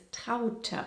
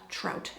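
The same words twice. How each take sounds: First: Traute in two syllables, "TROW-tuh"; correct German pronunciation. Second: Traute read as English "trout", one syllable; American misreading. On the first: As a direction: say Traute slowly with a final schwa. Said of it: "the correct way of saying this". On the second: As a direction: say trout like the fish. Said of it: "You'd pronounce that trout, Americans". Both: Shown as a demonstration.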